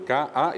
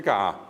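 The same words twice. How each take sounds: First: "K, A" cut apart between the two vowels; "K, A" with a clean break before the A; glottal break. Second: "K, A" run together as one long vowel; "K, A" joined without a stop; no glottal break. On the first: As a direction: stop the voice between K and A. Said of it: "allí está un pusó". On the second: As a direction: let K flow straight into A. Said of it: "Si no le pongo el pusó". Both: Shown as a demonstration.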